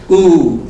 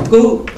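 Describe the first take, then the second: First: "ku" held long and falling, louder; long vowel. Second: "ku" high, short and cut off; short vowel. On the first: Teacher combining K, U and ba, long "ku". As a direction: draw out "ku" loudly. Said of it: "K, U, ba". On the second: Teacher combining K with U, short "ku". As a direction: say a brief, higher "ku". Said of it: "K, U". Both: Shown as a demonstration.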